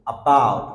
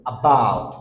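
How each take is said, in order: The two takes are said the same way.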